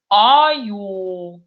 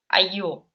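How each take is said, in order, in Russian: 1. Первый гласный — огубленный, ближе к о. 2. Первый гласный — обычный открытый а. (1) "мы говорим правильно, по-татарски. немножко олаштырып на о похоже" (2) "как в русском языке бы это звучало"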